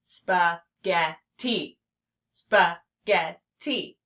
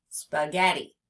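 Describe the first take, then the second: First: "Spaghetti" slowly as spa, get, tee; teacher sounding out "Spaghetti"; split into syllables. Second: Said in the usual way. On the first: Shown as a demonstration. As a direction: separate all three beats of "Spaghetti". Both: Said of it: "I hear three syllables".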